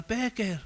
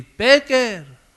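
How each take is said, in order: First: High but soft call of the name; softer call. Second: High, loud call of the name. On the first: Jesus calling a listener, softer high call. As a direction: say his name gently. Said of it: "te diga". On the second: Jesus calling a listener, high loud call. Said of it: "como si ahora te llama a ti". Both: Acted.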